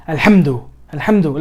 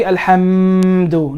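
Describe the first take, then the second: First: Alhamdu with a short, firm m; connected letters. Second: Alhamdu with a long humming mmm; wrongly elongated. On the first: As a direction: connect ham to du without lengthening. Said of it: "you're supposed to make that, that connection". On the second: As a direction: drag out the m of alhamdu far too long. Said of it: "don't elongate it too much". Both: Shown as a demonstration.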